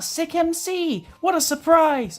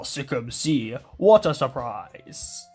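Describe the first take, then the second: First: It is said in a normal speaking voice. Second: It is said in a very deep voice.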